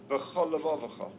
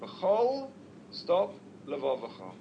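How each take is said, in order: First: The two words run together with no break. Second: The two words are separated by a clear break. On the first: The two words sound like a single word. The speaker calls it wrong. "it will sound like one word" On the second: Both lamed sounds are heard as separate letters. The speaker calls it right. "one should split those two words"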